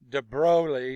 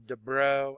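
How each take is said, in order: First: The whole name is pronounced, including the ending. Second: The last part of the name is dropped.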